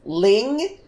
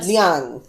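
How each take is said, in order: First: The name is said with a short 'ing' vowel. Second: The name is said with a gliding 'ee-ahng' vowel. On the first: The speaker calls it wrong. "what I thought was pronounced as" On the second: The speaker calls it right. "how to appropriately pronounce Liang"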